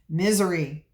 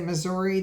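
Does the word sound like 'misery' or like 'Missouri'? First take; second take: misery; Missouri. First: The word is said so it sounds like misery. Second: The word is said in its standard form. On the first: "they say misery" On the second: "they don't say Missouri"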